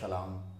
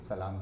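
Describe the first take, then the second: First: The word begins with a sh sound. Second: The word begins with an s sound. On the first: The speaker calls it wrong. "सलाम का सलाम" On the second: The speaker calls it right. "स को श, श को स बोलती थी"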